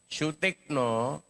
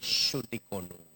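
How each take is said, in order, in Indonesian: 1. Namanya diucapkan dengan tiga suku kata, tanpa vokal tambahan. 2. Vokal tambahan disisipkan setelah bunyi k.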